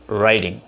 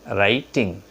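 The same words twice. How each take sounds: First: Said with a native-speaker accent. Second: Said with a local non-native accent. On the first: The speaker calls it right. "They pronounce writing" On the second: The speaker calls it wrong. "we pronounce writing"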